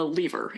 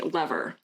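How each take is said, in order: First: The word is said in a British accent. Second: The word is said in a non-British accent.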